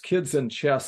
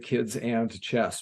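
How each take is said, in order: First: The middle word is reduced to a short 'n'. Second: The middle word is a full, clear 'and'. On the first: The speaker calls it right. "I specifically say it with the N instead of and" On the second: The speaker calls it wrong. "I don't say kids and chess because that's not really what it's called"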